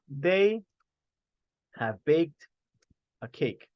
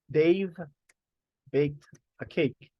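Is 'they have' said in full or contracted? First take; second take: full; contracted. First: The words 'they have' are said in full. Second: The words 'they have' are contracted to 'they've'. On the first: "Instead of saying they have" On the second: "We can do the contraction"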